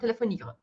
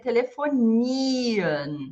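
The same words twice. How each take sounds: First: The final i sound is short. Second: The final i sound is long. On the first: The speaker calls it wrong. "e não telefonia" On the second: The speaker calls it right. "ele vai ter a função de prolongar o I"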